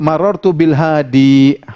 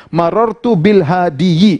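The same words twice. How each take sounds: First: "marartu bil hadi" held on a long final i; correct bare ending. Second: "marartu bil hadiyi" with an extra -yi; wrong added ending. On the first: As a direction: end "hadi" on one drawn i, no -yi. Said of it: "Mereka cukup marartu bil hadi". ("hadi" berakhir i panjang, tanpa -yi) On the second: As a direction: sound out a second i syllable in "hadiyi". ("hadiyi" dengan akhiran -yi yang keliru) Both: Shown as a demonstration.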